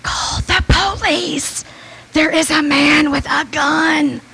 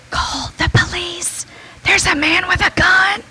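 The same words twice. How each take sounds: First: Slow, stretched loud whisper; loud drawn-out whisper. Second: Hushed, high whisper; urgent whisper. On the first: Slowly whispering the warning again to the customer. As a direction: draw every word out in a hoarse whisper. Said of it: "in a loud, more drawn-out whisper". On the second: Whispering a warning to the drive-thru customer. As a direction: warn her without the gunman hearing. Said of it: "I tried to quietly say". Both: Retold or imitated.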